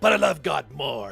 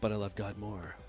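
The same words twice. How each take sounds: First: Said loudly and dramatically with exaggerated emotion. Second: Said softly and pensively in a deeper voice. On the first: "And I'm all like" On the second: "Pensive, a little deeper voice, kind of soft and sultry a little bit"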